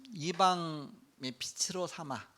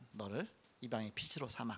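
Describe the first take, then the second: First: Slow, weighty delivery of 빛으로; slow solemn quote. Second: Soft repeat. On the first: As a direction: stretch each word of 이방의 빛으로 삼아. (천천히 장엄하게 읽는 말씀) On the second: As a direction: lower and softer, 너를 leaned on. (낮고 부드럽게 되뇌는 말씀) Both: Shown as a demonstration.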